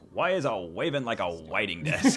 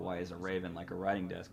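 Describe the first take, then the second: First: It is said in an Elmer Fudd voice. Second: It is said in a normal voice.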